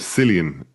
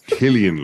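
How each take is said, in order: First: The name begins with an s sound. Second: The name begins with a k sound. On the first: The speaker calls it wrong. "people keep calling him Cillian" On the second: The speaker calls it right. "no, it's Killian"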